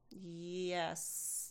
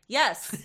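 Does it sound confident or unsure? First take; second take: unsure; confident. First: It sounds unsure and hesitant. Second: It sounds confident and firm.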